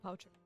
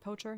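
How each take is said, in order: First: The first vowel sounds like 'ow'. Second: The first vowel sounds like 'oh'. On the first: The speaker calls it wrong. "not Poucher" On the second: The speaker calls it right. "Pronounce it Poacher"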